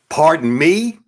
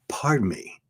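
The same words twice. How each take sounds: First: It sounds indignant and annoyed. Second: It sounds polite and apologetic. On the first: The speaker resents the other person. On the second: The speaker is sincerely apologizing.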